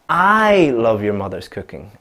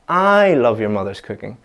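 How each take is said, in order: First: The stress falls on the word I. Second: The same.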